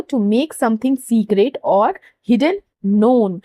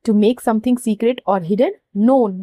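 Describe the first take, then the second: First: Slow dictation. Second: Slower dictation. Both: Shown as a demonstration. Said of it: "यहाँ पे underline".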